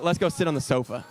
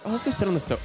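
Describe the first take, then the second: First: It is said in a plain, normal voice. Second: It is said in a put-on fancy voice.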